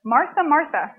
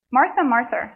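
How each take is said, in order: First: Said in the usual way. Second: Put-on Martha, Martha in a slipped New York accent; light New York accent on Martha, Martha. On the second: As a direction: say it like a New Yorker by mistake. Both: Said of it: "sorry, that was my New York".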